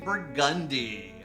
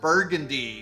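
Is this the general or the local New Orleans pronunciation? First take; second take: New Orleans; general. First: It is said the local New Orleans way. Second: It is said the way most places say it. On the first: This is how locals say the street name. "but in New Orleans, we say Burgundy" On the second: This is how the name is said outside the city. "Everywhere else in the world, you pronounce that Burgundy"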